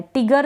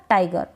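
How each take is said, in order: First: टिगर with a short i vowel; wrong reading of tiger. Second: टाइगर with the full ai glide; right reading of tiger; correct long ai. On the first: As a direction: read टिगर as written, tig. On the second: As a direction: open टाइगर on ai. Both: Shown as a demonstration. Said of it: "टिगर तो नहीं पढ़ सकते ना".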